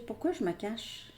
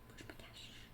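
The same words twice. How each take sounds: First: Said in the usual way. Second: Breathy whisper, much softer, voice dropped out. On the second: Pretend. Reader voicing the person's hidden thought, in a whisper. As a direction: hush it to yourself like a secret. Repeats the inner question, whispered.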